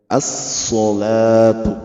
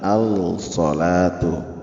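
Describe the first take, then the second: First: The l merges into a doubled s sound. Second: The l sound is clearly pronounced before s. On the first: The speaker calls it right. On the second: The speaker calls it wrong. "bukan al-salatu, salah ya"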